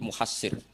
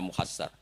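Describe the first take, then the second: First: The last vowel of the name is 'i'. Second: The last vowel of the name is 'a'.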